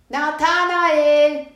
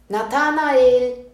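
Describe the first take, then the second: First: The name is called out even louder. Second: The name is called out loudly. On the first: "Nochmal lauter" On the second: "den Namen ganz laut zu rufen"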